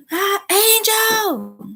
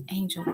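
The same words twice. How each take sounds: First: High, drawn-out holler of a name; loud, demanding call. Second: Said in the usual way. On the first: Shown as a demonstration. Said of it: "not a demanding or loud voice". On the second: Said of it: "It's just a normal tone".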